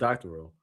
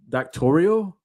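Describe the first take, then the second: First: The word is said with three syllables. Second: The word is said with four syllables. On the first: The speaker calls it right. "It's doctoral" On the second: The speaker calls it wrong. "doctors don't say doctorial"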